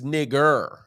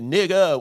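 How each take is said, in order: First: The word ends with a strong R sound. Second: The word ends with a plain vowel sound. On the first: It is an insult from outsiders. "with the strong E R" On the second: It is used among insiders. "It is N I G G A"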